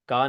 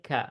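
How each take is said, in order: First: The consonant is plain, with no breathy friction. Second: The consonant has a light breathy, whispering friction. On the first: The speaker calls it wrong. "का नहीं है" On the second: The speaker calls it right. "हल्के से हमस के साथ, विस्पिंग साउंड के साथ"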